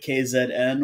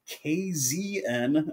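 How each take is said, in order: First: Z is said as zed, South African style. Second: Z is said as zee, American style.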